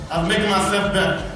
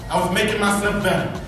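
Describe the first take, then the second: No difference in how they are said.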